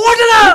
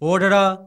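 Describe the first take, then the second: First: It is said loudly and with force. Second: It is said softly and without force. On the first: The speaker calls it right. "ഒന്ന് ഉറക്കെ പറയ്" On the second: The speaker calls it wrong. "ഛേ, ഇതെന്തോന്ന് പറച്ചില്?"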